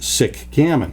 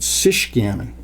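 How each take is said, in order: First: The first word ends in a k sound. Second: The first word ends in a sh sound. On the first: The speaker calls it wrong. "Why am I not calling it sick gammon?" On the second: The speaker calls it right. "as you would in uh, Chicago or Michigan or Chouette"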